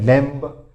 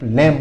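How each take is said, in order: First: A b sound is heard at the end. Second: No b sound is heard at the end. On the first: The speaker calls it wrong. "बहुत से बोल जाते हैं लैम्ब" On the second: The speaker calls it right. "इसमें भी बी silent रहता है"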